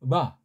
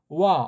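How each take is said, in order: First: The lips close firmly on a hard b. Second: The lips barely meet, giving a w. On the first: "바가 아니고" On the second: "너무나 이걸 약하게 해서 와자라고 들려요"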